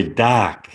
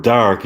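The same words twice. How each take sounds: First: "doc" for dark, R dropped; British dark. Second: Said in the usual way. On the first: Shown as a demonstration. Streamer trying a listener's British accent tip, "doc" without R. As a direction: say "doc" with an open vowel and no R. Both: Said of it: "So with a British accent".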